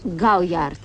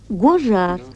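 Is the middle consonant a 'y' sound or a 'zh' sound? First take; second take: y sound; zh sound. First: The name is read with a 'y' sound. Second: The name is said with a 'zh' sound. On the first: It follows the French spelling. The speaker calls it wrong. "по-французски пишется гауяр" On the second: It follows the real French pronunciation. The speaker calls it right. "а произносится гожар"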